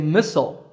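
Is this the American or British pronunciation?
American. It is said with an American pronunciation. "Americans say missile"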